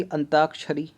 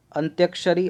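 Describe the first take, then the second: First: अंताक्षरी with plain taa; contrasted form without ya. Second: अंत्याक्षरी with a y after t; contrasted ya form. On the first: Teacher comparing spellings, अंताक्षरी with no y. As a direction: say अंताक्षरी as an-taak-shari. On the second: Teacher comparing spellings, अंत्याक्षरी with tya. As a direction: say अंत्याक्षरी as ant-yaak-shari. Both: Shown as a demonstration. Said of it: "ये भी गलत है".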